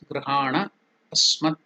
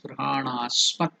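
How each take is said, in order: First: The two words are said separately. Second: The two words are merged into one word. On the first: "The words Grihana Asmat"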